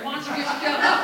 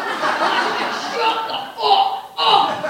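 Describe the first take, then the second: First: Raised voice, irritated; loud mock-annoyed retort; acted quarrel. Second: Loud, higher-pitched blow-up; acted furious yell. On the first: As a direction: snap it in a family argument. Acted quarrel, first take before escalation. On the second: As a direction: explode in a family shouting match. Acted quarrel blowing up into yelling.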